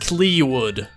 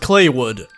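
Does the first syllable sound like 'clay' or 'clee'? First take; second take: clee; clay. First: The first syllable sounds like 'clee'. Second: The first syllable sounds like 'clay'. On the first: The speaker calls it wrong. "I thought it was pronounced Cleewood" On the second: The speaker calls it right. "Pronounced like clay"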